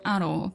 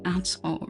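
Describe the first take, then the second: First: It is said quickly with the sounds linked. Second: It is said slowly with each sound clear. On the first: This is how it sounds in everyday conversation. "I usually say aro" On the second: This is a slower, careful way of speaking. "because um, I talk a little bit slower"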